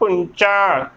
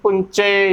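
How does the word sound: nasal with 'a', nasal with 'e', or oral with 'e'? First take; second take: nasal, a; nasal, e. First: It has a nasal sound and ends in 'a'. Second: It has a nasal sound and ends in 'e'. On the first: The speaker calls it right. "ਪੁੰਚਾ ਉਚਾਰਨ ਕਰਨਾ ਹੈ" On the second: The speaker calls it wrong. "ਨਾ ਕਿ ਪੁੰਚੇ"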